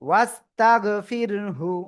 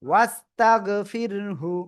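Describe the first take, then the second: Both takes have the same delivery.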